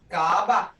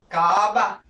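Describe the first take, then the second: First: The vowel sound is held long. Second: The same.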